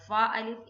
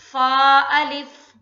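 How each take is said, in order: First: Said in the usual way. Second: फा held two beats, loud and slow; tajweed recitation. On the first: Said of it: "एक पहला फा". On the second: Shown as a demonstration. Teacher recites for students, loud slow chant. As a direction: chant फा अलिफ, stretching फा. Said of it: "तो कैसे पढ़ेंगे?".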